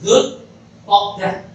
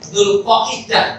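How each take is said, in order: First: The name is said the common local way. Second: The name is said the careful Arabic way. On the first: The speaker calls it wrong. "kadang orang-orang kita menyebut" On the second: The speaker calls it right. "penyebutannya yang benar itu sebenarnya"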